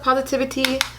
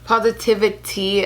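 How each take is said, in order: First: The final syllable is said plainly, without emphasis. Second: The final syllable is stressed, sounding like tea.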